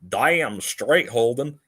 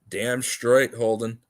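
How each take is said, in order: First: It is said in a Western accent. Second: It is said in his normal accent.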